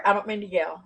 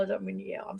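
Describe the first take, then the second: First: Said in the usual way. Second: Soft whispered apology. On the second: Shown as a demonstration. Streamer whispering an apology to chat for yelling. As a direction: whisper it to show you've calmed down.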